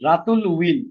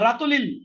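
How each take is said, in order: First: The word will is said fully and separately. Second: The word will is shortened and joined on. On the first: The speaker calls it right. "ওইটা contraction হবে না" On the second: The speaker calls it wrong. "আবার রাতুলিল হবে না"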